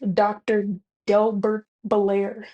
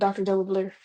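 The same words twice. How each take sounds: First: It is said slowly and deliberately. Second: It is said at a quicker pace.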